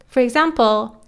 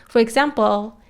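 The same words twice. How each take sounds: Both takes have the same delivery.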